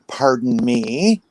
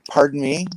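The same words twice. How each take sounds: First: It is said in an indignant, offended tone. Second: It is said in a neutral, polite tone.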